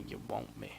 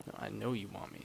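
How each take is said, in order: First: Deep voice. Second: Said in the usual way. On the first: Shown as a demonstration.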